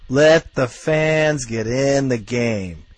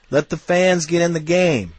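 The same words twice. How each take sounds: First: "Let the fans get in the game" dragged out word by word; slow emphatic repeat. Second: Rallying call. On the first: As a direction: hammer each word slowly home. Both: Real, not acted.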